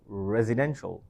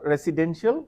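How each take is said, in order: First: The stress is on the third syllable. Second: The stress is not on the third syllable. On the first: The speaker calls it right. "We have to stress the third syllable" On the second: The speaker calls it wrong. "So not residential"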